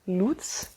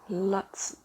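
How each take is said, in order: First: The vowel is long, like in 'loot'. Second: The vowel is short, not like 'loot'. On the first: The speaker calls it right. "like L O O T, like Lut" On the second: The speaker calls it wrong. "I've pronounced it as like Lutz dolls"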